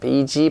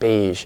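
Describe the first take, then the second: First: The final sound is not a soft zh. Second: The final sound is a soft zh. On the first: The speaker calls it wrong. "not beige" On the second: The speaker calls it right. "but beige. So it's a zh, no contact"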